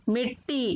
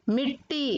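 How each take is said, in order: No difference in how they are said.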